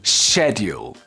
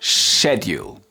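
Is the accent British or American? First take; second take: British; British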